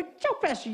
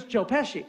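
First: High-pitched, pleased echo of the name; excited recognition. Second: Said in the usual way. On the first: Retold or imitated. Caller hears the actor he was describing, excited recognition. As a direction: seize on the name as the right one.

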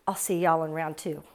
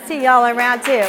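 First: Said in the usual way. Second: Louder repeat. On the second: Real, not acted. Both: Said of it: "all I wanna say to you guys".

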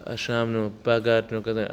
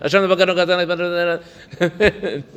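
First: Said in the usual way. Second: "Ashamnu, bagadnu" rattled off quickly, laughing; rushed. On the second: Shown as a demonstration. Teacher mocks a hurried confession, quick and laughing. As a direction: zip through it carelessly. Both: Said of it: "Say it quickly".

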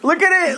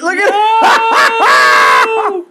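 First: Said in the usual way. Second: Slow, stretched, shouted; loud drawn-out shout. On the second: Real, not acted. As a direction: drag it out and yell it.

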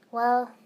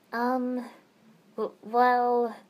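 First: Said in the usual way. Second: Halting, stammered start; stuttering. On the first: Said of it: "I looked down". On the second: Acted. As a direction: trip over the first words. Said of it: "I stuttered".

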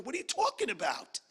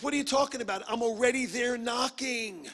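First: Too-high exclamation. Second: God's exasperated reply. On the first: God answering someone's prayer, voiced a little too high. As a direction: voice jumping up high mid-question. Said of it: "that was a little high". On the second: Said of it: "He goes". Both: Acted.

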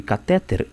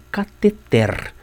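First: "catéter" stressed on the middle syllable, ca-TÉ-ter; common stress shift. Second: "cateter" stressed on the end, ca-te-TER; slow "cateter", landing on TER; final-syllable stress. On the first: Teacher quoting the widespread usage, middle syllable stressed. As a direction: put the weight on TÉ in "catéter". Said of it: "o uso tão disseminado de catéter". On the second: Teacher giving the rigorous form of the word, carefully stressed. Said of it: "cateter é uma palavra oxítona". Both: Shown as a demonstration.

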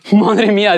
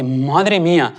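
First: Louder, higher madre mía bursting out; amazed exclamation. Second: A first hushed madre mía; stunned, held back. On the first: Father sees his car open, amazed outcry. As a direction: let the surprise burst out. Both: Retold or imitated. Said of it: "El hombre flipa y dice".

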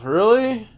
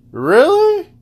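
First: Incredulous. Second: Much higher, louder incredulous Really; escalated indignant Really; disbelieving. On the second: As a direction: shriek the word in disbelief. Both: Real, not acted. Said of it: "you wanna go there".

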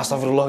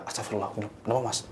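First: Louder cry of alarm; screamed exclamation. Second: Quiet, steady exclamation; calm, not screaming. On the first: Passengers crying out as the brakes fail, loud alarmed cry. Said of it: "Kita teriak". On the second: Driver Bambang asking calmly what is wrong, quiet and steady. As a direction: keep it level while others panic. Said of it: "Mas Bambang nggak teriak". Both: Retold or imitated.

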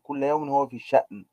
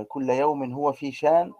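First: شأن with a glottal catch, "sha'n"; recited line falling on a hamzated شأن; hamza sounded. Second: شان with a long smooth "aa", no glottal stop; slow recited line, rising on an unbroken شان; hamza left out. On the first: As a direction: cut شأن with a glottal stop before the n. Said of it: "جاء بالهمز". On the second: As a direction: glide through شان as "shaan", slowly. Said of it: "ترك الهمز". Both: Shown as a demonstration.

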